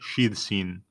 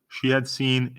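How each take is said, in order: First: The word had is shortened onto she. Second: The word had is said in full.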